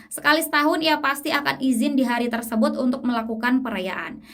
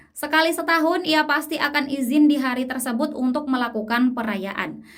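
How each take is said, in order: Both takes have the same delivery.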